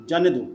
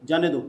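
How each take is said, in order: No difference in how they are said.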